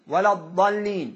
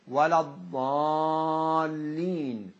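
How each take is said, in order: First: The vowel after the first consonant is cut short. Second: The vowel after the first consonant is held long. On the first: The speaker calls it wrong. "لو قلنا هكذا ولا الضالين ولا الضالين، لاحظوا مع عدم المد كأن الألف ضاعت" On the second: The speaker calls it right. "الألف لا تظهر من دون إبراز المد، ولا الضالين لابد"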